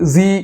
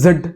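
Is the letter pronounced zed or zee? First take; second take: zee; zed. First: The letter is said as zee. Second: The letter is said as zed. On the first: "English ആണെങ്കിൽ" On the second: "British ആണെങ്കിൽ"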